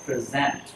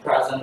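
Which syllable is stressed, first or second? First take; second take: second; first. First: The stress is on the second syllable. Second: The stress is on the first syllable. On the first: It is a verb meaning to present or introduce. "Còn khi bạn đọc là present, lúc đó là một verb" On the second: It is a noun meaning a gift. "phát âm present luôn là món quà"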